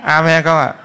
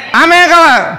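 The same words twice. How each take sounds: First: Said in the usual way. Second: High, loud call to the congregation; raised preacher's shout for response; rousing call. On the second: Real, not acted. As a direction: push for a bigger Amen, loud and high. Repeats call for louder Amen.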